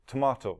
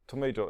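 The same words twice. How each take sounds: First: It is said in a British accent. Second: It is said in an American accent. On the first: "les Anglais britanniques vont dire" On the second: "les Américains disent"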